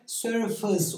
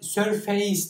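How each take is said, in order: First: The second syllable has a reduced schwa vowel. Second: The second syllable has a full stressed vowel. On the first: The speaker calls it right. "ikinci hecedeki vurgu düşüyor ve yerini şıvaya bırakıyor" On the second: The speaker calls it wrong. "surface değil de"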